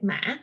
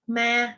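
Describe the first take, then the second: First: The pitch rises with a break in it. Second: The pitch stays level and smooth. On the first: It means horse. "if you add a broken, it's become a horse" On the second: It means ghost. "ghost in Vietnamese is called ma"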